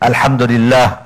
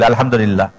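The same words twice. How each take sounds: First: It is said slowly with a clear h sound. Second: It is said quickly with no h sound. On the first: The speaker calls it right. "সুন্দরভাবে উচ্চারণ করা, তাড়াহুড়া না করা" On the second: The speaker calls it wrong. "হা আছে এর মধ্যে? নাই"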